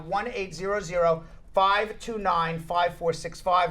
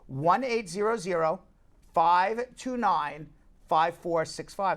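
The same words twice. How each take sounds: First: The number is said at normal speed. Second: The number is said very slowly.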